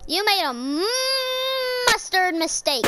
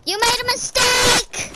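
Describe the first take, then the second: First: Long held "mmm" before "mustard". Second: Shouted taunt. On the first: Acted. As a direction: hum the M of "mustard" before finishing the word. Joke retake stretching the m. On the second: Real, not acted. Taunts opponent mid-game.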